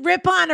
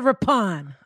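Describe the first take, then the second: First: "Rippon" offered as the first of two pronunciations; first pronunciation option. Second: "Rippon" ending in a clear, full "on"; "on" pronunciation. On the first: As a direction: say "Rippon" as the alternative without the stressed "on". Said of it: "Is it Rippon or Rippon?". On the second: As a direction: say "Rippon" with a distinct "on" at the end. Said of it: "Um, on". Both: Shown as a demonstration.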